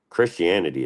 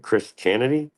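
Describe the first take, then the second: First: Said in the usual way. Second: "Christianity" broken into Chris... Chanity, pitched high; punning pronunciation. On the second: Shown as a demonstration. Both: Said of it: "Christianity is fine, but".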